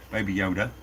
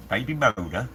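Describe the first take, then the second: First: "Yoda" said right, settled and low; matter-of-fact correction to "Yoda"; corrected name. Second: "Moda" read off chat, puzzled rise; reading "Moda" with a questioning rise; misread name. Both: Real, not acted.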